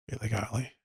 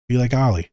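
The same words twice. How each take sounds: First: Much softer, near-whispered repeat; soft hushed echo; quiet echo. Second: Said in the usual way. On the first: Shown as a demonstration. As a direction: let it fall to a hush.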